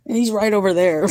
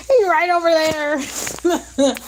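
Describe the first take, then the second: First: Said in the usual way. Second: High, slow amused repeat; slow high amused emphasis; drawn out. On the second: Real, not acted. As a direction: stretch it out, half laughing.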